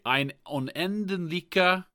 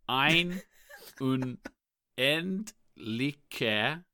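First: The phrase is spoken at a normal pace. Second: The phrase is spoken slowly, syllable by syllable.

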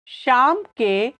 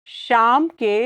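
Both takes have the same delivery.

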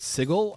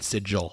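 First: It is said the city-name way, unlike rune. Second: It is said the way the rune word sounds. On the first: It names the city of doors. The speaker calls it right. "It's pronounced Sigil" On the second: It names a magical rune. The speaker calls it wrong. "if you pronounce it like a rune"

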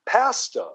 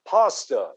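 First: It is said with a Canadian pronunciation. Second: It is said with an American pronunciation. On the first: "in Canada, it's pasta" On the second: "The word in the United States for that wonderful Italian food is pasta"

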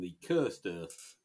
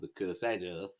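First: The word cursed is pronounced the ordinary way. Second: The word cursed is pronounced an unusual way.

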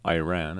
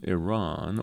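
First: It is said with an American pronunciation. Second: It is said with a non-American pronunciation.

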